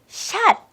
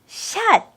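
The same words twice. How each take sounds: The two takes are said the same way.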